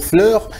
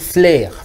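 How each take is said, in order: First: The vowel is the rounded French 'eu' sound. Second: The vowel is an open sound like 'air'. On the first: The speaker calls it right. "on doit dire fleur" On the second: The speaker calls it wrong. "on a l'habitude de dire flair"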